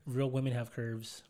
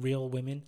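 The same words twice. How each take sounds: First: Slow careful speech through braces; enunciating around sore braces. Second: Careful speech through braces. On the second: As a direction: sore mouth from braces. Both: Real, not acted. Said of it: "I can't really talk 'cause I got my braces tightened".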